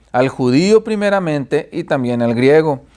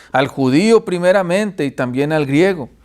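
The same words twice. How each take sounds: Both takes have the same delivery.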